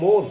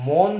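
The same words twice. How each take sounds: First: মন said as "mon" with a closed o, louder; the right way: মন with a closed o like ও; correct closed vowel. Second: মন said as "mɔn" with an open ɔ, louder; the wrong way: মন with an open ɔ; wrong open vowel. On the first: Teacher to students, correcting them: মন as mon. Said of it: "এখানে বলতে হবে মন". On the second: Teacher to students, showing the mistake: মন as mɔn. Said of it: "আসলে কিন্তু মন বললে হবে না". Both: Shown as a demonstration.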